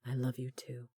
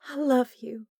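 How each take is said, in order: First: Soft whispered reply; tender whisper. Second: High, tender declaration. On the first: Corbin whispering his love back to Delaney, tender whisper. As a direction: breathe it back to her. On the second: Delaney telling Corbin she loves him, tender. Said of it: "she uttered". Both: A narrator's reading.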